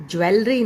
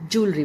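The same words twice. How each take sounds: First: ज्वेलरी as "jwe-le-ree", three beats; wrong "jwe" sound. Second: ज्वेलरी said "JOOL-ree"; two beats for ज्वेलरी, joo then ree; "joo" sound. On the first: Teacher showing what it is not, "jwe-le-ree". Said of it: "ज्वेलरी नहीं होता है". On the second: Teacher drilling the word for students, "JOOL-ree". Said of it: "pronunciation जू से होती है". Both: Shown as a demonstration.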